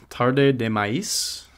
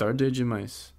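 First: "Tarde de Maíz" read slowly as Spanish, tar-deh deh mah-EES; misread title. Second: "Tarde demais" as Portuguese, tar-deh jee-MICE; corrected pronunciation. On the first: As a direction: sound out "Tarde de Maíz" syllable by syllable, with the last word said like Spanish maíz. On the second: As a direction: repeat "Tarde demais" with the second d turned to j. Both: Real, not acted.

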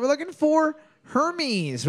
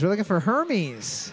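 First: High announcer call. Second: Said in the usual way. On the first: Acted. Host reveals answer.

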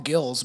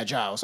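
First: Gills said with a hard g, like fish gills. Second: Giles said with a soft j sound, like jiles. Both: Shown as a demonstration. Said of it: "I wanna call him Gills".

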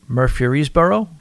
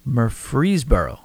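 First: Murfreesboro slowly sounded out with an extra syllable, rising as a question; unsure pronunciation. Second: Murfreesboro said slowly in three firm beats, falling at the end; settled pronunciation. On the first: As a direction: try Murfreesboro haltingly, as if asking. Unsure try at reading town name. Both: Real, not acted.

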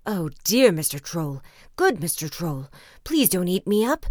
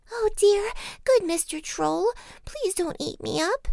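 First: Loud pleading in a middling goat voice; frightened middle-sized goat. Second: High, pleading little-goat voice; frightened little goat. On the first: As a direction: beg the troll for mercy, not squeaky. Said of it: "was in great fright". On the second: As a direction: beg the troll in a tiny squeak. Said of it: "he was very much frightened". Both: A narrator's reading.

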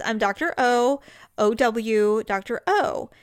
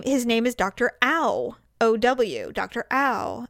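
First: Doctor O, the O said like the letter O. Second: The name said Ow, like a cry of pain; Doctor Ow, rhyming with cow; Ow like ouch. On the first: Doctor correcting Jamie's pronunciation, saying O like oh. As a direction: say O with a long oh, never ow. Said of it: "He goes". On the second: Nurse telling the family the name, saying Ow like ouch. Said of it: "And he said". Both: Retold or imitated.

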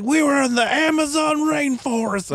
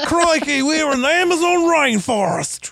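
First: Put-on much higher Australian-ish voice of the old pilot; pitched-up Australian accent for the pilot; Australian accent impression. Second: Much higher, hammed-up Australian accent with a big Crikey; over-the-top Australian accent, higher. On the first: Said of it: "Was that Australian?". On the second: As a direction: ham up the Australian pilot. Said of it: "I don't know why I'm Australian when I'm doing this guy".

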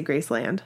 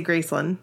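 First: Graceland with LAND fully voiced as in "and"; full-vowel pronunciation. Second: Graceland with a weak "lund" ending; Memphis pronunciation. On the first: How I say it with other people, Graceland with a full LAND. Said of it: "When I'm with other people". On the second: How I say it at work with them, Graceland as GRACE-lund. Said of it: "when I work with them". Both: Shown as a demonstration.

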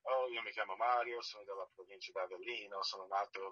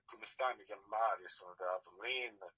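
First: Italian introduction in standard pronunciation. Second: Italian introduction in Neapolitan dialect. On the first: Actor introducing himself to the director in standard Italian. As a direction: say it in proper textbook Italian. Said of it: "Do you speak Italian?". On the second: Actor redoing his introduction for the director in Neapolitan dialect. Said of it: "Napolitan dialect". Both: Retold or imitated.

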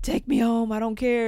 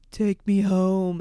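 First: Higher, louder, pleading "Take me home"; stoned kid insisting to his brother, higher and louder; mock insistent whine. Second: Slow, loud "Take me home"; stoned kid begging his brother, slow and loud; desperate mock plea. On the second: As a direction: drag out each word, begging. Panicking high, begging brother.

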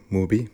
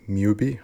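First: Mubi said as "MOO-bee", plain oo; pronounced MOO-bee. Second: Mubi said as "MYOO-bee", with a y-glide; pronounced MYOO-bee. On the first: Film fan unsure of the streaming site's name, saying Mubi as MOO-bee. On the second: Film fan offering another way to say the site's name, Mubi as MYOO-bee. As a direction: say Mubi with a mew at the start, questioning rise. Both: Shown as a demonstration. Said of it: "however you, they want you to pronounce that".

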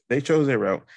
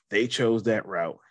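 First: "chose" punched higher and louder; stress on chose. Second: Said in the usual way. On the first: Real, not acted. Repeating the point for emphasis.

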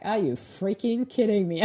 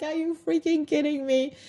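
First: Said in the usual way. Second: High-pitched "freaking" in delighted shock; thrilled, pitched-up are you freaking kidding me; amazed disbelief. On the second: Retold or imitated. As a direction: squeal out the disbelief. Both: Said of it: "I'm like".

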